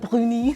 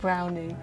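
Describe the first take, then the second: First: It is said with a French accent. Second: It is said with an English accent. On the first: The speaker calls it wrong. "C'est pas brownie" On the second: The speaker calls it right. "en anglais, c'est brownie"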